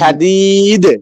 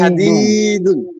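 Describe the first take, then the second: First: The word stops without its final -un ending. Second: The word ends with the full -un ending. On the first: The reading stops at this word. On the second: The reading continues past this word.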